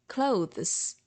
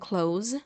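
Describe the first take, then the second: First: The th sound is heard before the z. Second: The th sound is left out before the z. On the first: The speaker calls it right. "you should say clothes" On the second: The speaker calls it wrong. "instead of saying clothes"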